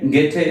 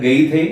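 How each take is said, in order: First: The name has an 'ay' vowel and a 't' sound. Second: The name has an 'ay' vowel and a 'th' sound. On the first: The speaker calls it right. "ഗേറ്റെ എന്നാണ് അദ്ദേഹത്തിന്റെ ശരിയായുള്ള ഉച്ചാരണം" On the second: The speaker calls it wrong. "സാധാരണയായിട്ട് ഗെയ്ഥെ അല്ലെങ്കിൽ ഗൊയ്ഥെ എന്നൊക്കെയാണ് നമ്മൾ എഴുതുന്നത്"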